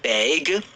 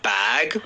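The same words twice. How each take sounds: First: The word bag is said with a Canadian vowel. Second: The word bag is said without a Canadian vowel. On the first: "you got this Canadian accent" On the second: "not bag"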